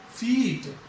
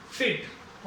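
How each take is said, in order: First: फीट with a long drawn-out ee; long vowel. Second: फिट with a short lax i, softly; short vowel. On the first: Teacher contrasting short and long ई, long vowel. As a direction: hold the ee in फीट. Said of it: "ई की long sound जा रही है". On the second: Teacher contrasting short and long ई, short vowel. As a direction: keep the vowel in फिट brief. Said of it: "छोटी sound है ई की". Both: Shown as a demonstration.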